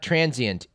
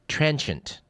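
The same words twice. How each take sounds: First: The word is said with three syllables. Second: The word is said with two syllables. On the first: The speaker calls it wrong. "It's not transient" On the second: The speaker calls it right. "it's got two syllables"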